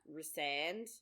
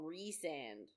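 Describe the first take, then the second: First: The stress is on the last syllable. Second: The stress is on the first syllable. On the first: "the emphasis is on the last three letters" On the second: "I call him Resand"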